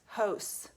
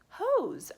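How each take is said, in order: First: The s is said as a hissing S sound. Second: The s is said as a buzzing Z sound. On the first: The speaker calls it wrong. "that doesn't mean anything" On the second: The speaker calls it right. "let me try the Z sound"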